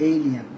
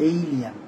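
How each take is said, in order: No difference in how they are said.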